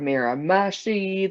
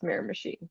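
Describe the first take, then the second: First: The name is said the way outsiders say it. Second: The name is said the way locals say it. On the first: The speaker has never been there. The speaker calls it wrong. "everyone else that is like hasn't been there kind of thing seems to pronounce it like" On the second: The speaker knows the place. The speaker calls it right. "it's in New Brunswick, so I'm like, yeah, it's Miramichi"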